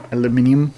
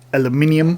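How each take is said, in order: First: It is said the European way, five syllables. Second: It is said the European way, five syllables.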